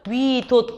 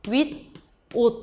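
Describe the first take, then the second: First: The middle consonant carries over into the second syllable. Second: The middle consonant stays in the first syllable. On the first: "최종적으로 발음이 되거든요" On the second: "윗옷 이렇게 된 다음에"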